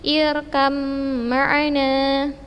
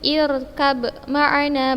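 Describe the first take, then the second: First: The b merges into a doubled m sound. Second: A separate b sound is heard before ma'ana. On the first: The speaker calls it right. "tetapi irkam ma'ana" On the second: The speaker calls it wrong. "Bukan ir irkab ma'ana, bukan ya akhwat"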